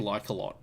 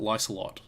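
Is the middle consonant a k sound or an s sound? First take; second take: k sound; s sound. First: The middle consonant is a k sound. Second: The middle consonant is an s sound. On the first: "it could be Lycolot as well" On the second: "I'm pronouncing it Lysolot, as in ocelot"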